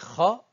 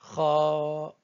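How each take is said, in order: First: The vowel after the consonant is short. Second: The vowel after the consonant is long. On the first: The speaker calls it wrong. "Au lieu de dire" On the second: The speaker calls it right. "on dit"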